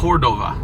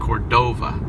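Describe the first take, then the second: First: The stress is on the first syllable. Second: The stress is on the second syllable. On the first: The speaker calls it right. "maybe it should really be on the first O" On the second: The speaker calls it wrong. "we put the accent on the last O"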